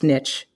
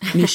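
First: The word is pronounced the American way. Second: The word is pronounced the British way. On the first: "It's niche. If you're American" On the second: "Niche if you're an Anglophile"

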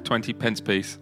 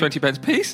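First: It is said in a normal voice. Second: It is said in a squeaky voice.

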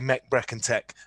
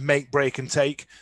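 First: The words have a short Sheffield vowel. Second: The words have the standard long vowel.

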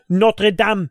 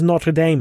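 First: It is pronounced with a French accent. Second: It is pronounced with an English accent. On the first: The speaker calls it right. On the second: The speaker calls it wrong.

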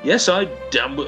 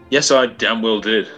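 First: It is said in a mismatched character voice. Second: It is said in the intended character's voice.

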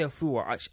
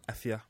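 First: The name begins with an open 'ah' vowel. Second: The name begins with a front 'eh' vowel. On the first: The speaker calls it wrong. "I say Afua" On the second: The speaker calls it right. "That's how you pronounce it"

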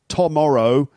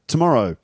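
First: The first syllable is pronounced fully and clearly. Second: The first syllable is reduced and nearly swallowed. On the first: The speaker calls it wrong. "not tomorrow" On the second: The speaker calls it right. "English native speakers swallow the first syllable"

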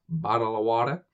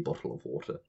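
First: An American accent with flapped t sounds. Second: A British accent with a crisp t in bottle. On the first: "Whereas you Americans, you say bottle of water" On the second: "I enunciate. I say bottle of water"

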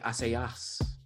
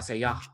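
First: The final s sound is pronounced. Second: The final s sound is silent. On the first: The speaker calls it wrong. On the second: The speaker calls it right.

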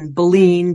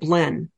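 First: The name is said with a fuller 'en' ending. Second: The name is said short, with a clipped ending. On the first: This makes the spelling clearer to listeners. "I put a little bit more of an E-N on it" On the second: This is how many locals say the town's name. "a lot of them would pronounce it Blen"

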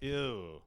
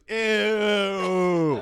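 First: It is said in a natural, casual way. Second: It is said in an exaggerated, put-on way.

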